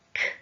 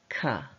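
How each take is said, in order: First: The consonant sound is said alone without a vowel. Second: The consonant sound is followed by an added vowel. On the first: The speaker calls it right. "are pronounced k" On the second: The speaker calls it wrong. "and not ka"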